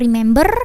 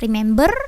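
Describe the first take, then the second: Both takes have the same delivery.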